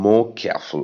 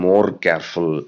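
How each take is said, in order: First: The r sounds are dropped. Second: The r sounds are clearly pronounced. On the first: The speaker calls it right. "R வரது எல்லாத்தையும் cut பண்ணிக்கோங்க" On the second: The speaker calls it wrong. "I didn't say more careful"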